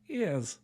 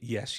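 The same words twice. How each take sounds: First: It is said in an old-fashioned period accent. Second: It is said in a plain modern accent. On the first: The speaker calls it right. "as they did back then" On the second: The speaker calls it wrong. "apparently you don't say"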